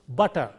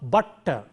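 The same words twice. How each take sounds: First: The t sound is short and single. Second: The t sound is held long, doubled. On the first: The speaker calls it right. "as though there is a single T there" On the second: The speaker calls it wrong. "the t is prolonged"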